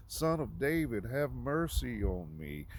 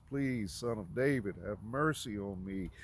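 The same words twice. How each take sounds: First: Higher, louder pleading call; louder retold cry. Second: Retold hollering plea. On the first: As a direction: cry out more insistently, drawing out the plea. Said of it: "made him cry out even more". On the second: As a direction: call out imploringly, short of a shout. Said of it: "He ho-, he hollers, he cries".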